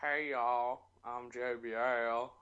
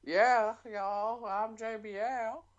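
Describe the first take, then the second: First: Slow Southern drawl at normal pitch; JBL impression. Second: High, slow Southern drawl; JBL impression. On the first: Redoes the impression at lower pitch. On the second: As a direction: pitch it up for a mock Southern accent. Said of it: "Why do you go higher?". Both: Shown as a demonstration.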